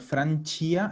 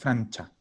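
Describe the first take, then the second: First: The ending sounds like 'see-ah'. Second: The ending sounds like 'chah'. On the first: The speaker calls it wrong. "Sin la I, no es Francia" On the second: The speaker calls it right. "es Francha"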